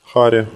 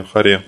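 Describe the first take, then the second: First: Харе said ХА-ре, first syllable stressed. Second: Харе said ха-РЕ, final syllable stressed; stress on last syllable. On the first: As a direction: lean on the А in Харе. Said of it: "ударение иногда ставится на А". (ударение на А: ХА-ре) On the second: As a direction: lean on the Е in Харе. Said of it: "а иногда на Е". (ударение на Е: ха-РЕ) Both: Shown as a demonstration.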